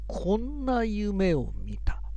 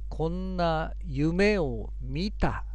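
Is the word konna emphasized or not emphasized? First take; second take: emphasized; not emphasized. First: The word konna is given strong emphasis. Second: The word konna is not given special emphasis. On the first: The speaker calls it right. "こんなというところに、二重線が引いてあります" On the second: The speaker calls it wrong. "よくある読み方というのは"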